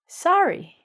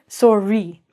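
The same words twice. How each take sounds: First: The first vowel is open, like 'sar'. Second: The first vowel sounds like 'sore'. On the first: "our friends in America say sorry" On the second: "We say sore, like ow, ow, ow, that's sore, sorry"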